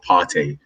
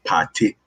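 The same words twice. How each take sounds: First: "Partey" said the common non-Ghanaian way; mistaken pronunciation. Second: "Partey" said the true Ghanaian way; Ghanaian pronunciation. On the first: Podcast host showing the panel the mistaken name, common mispronunciation. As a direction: show how outsiders mispronounce "Partey". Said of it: "It's not Partey". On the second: Podcast host teaching the panel a player's name, Ghanaian pronunciation. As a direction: pronounce "Partey" as a Ghanaian would. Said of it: "the way to pronounce it is". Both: Shown as a demonstration.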